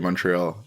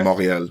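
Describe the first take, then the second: First: It is pronounced with English sounds. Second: It is pronounced with French sounds. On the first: The speaker is talking in English. "if you're speaking English, you're gonna say Montreal" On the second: The speaker is talking in French. "which is like the French pronunciation"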